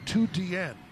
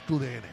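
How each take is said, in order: First: The first word sounds like English 'two'. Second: The first word sounds like Spanish 'tu'. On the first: The speaker calls it wrong. "if you read this exactly like the league wrote it, you would say two D N, and I that's not quite right" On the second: The speaker calls it right. "if you live here, you know Tu D N"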